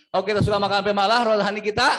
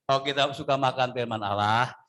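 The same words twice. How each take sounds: First: Quicker, louder repeat of the line; faster repeat. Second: Said in the usual way. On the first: Shown as a demonstration. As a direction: push it faster the second time. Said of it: "Saya ulang". (ulangi lebih cepat dan keras) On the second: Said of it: "Ya saya ulang ya".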